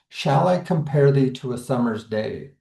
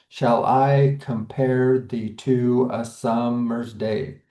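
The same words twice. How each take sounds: First: The first word shall carries stress. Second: Stress falls on every second syllable, shall unstressed. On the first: "it might look like it's starting with shall, which is that stressed syllable" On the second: "through the lens of iambic pentameter, we'd read it as"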